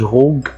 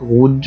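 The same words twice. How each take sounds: First: The g is a hard g sound. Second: The g is a soft zh sound. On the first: The speaker calls it wrong. "ما قلتش غوج، خطأ" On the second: The speaker calls it right. "قلت غوج ... فنطق ج معطش"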